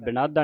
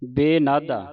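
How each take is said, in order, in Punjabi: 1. ਪਹਿਲਾ ਸਵਰ ਛੋਟੀ 'i' ਧੁਨੀ ਹੈ। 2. ਪਹਿਲਾ ਸਵਰ ਲੰਮੀ 'e' ਧੁਨੀ ਹੈ। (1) "ਸਿਆਰੀ ਉਚਾਰਨ ਨਹੀਂ ਕਰਨੀ, ਬਿਨਾਦਾ ਨਹੀਂ ਕਹਿ ਦੇਣਾ" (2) "ਬੇਨਾਦਾ ਲਾਂ ਦੇ ਨਾਲ"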